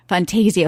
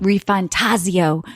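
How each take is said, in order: First: "Fantasio" with a long AY, fan-TAY-zee-oh; FanTAYzio pronunciation. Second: "Refantasio" slowly, ree-fan-TAH-zee-oh; ReFanTAHzio pronunciation. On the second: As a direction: stretch "Refantasio" with an open TAH. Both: Shown as a demonstration. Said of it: "I don't know how to say this".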